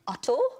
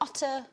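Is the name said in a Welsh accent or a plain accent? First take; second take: Welsh; plain. First: It is said in a Welsh accent. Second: It is said in a plain, non-Welsh accent.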